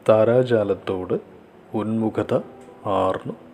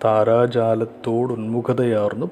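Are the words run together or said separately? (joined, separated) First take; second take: separated; joined. First: The words are split apart and said separately. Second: The words are run together as one joined form.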